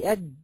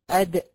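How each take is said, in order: First: "أد" said flat, dal closed with no echo; "أد" clipped, the dal dead-stopped; wrong qalqala. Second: "أد" louder, dal released with a bouncing echo; qalqala on dal. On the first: Teacher to students showing the wrong way: a flat dal. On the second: Teacher to students showing the right qalqala: bouncing dal. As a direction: pop the dal in "أد" so it rebounds. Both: Shown as a demonstration. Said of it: "ما ينفعش تقول أد".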